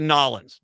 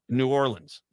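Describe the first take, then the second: First: The name is squeezed into two short syllables. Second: The name is said in full, word by word. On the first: The speaker calls it wrong. "don't say Nolans" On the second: The speaker calls it right. "No, New Orleans"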